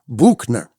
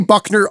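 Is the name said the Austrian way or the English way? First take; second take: Austrian; English. First: The name is said with an Austrian pronunciation. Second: The name is said with an English pronunciation. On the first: "like you should in Austrian, which is Buchner or something like that" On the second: "I say Buckner only because she doesn't really trust people to say it like you should"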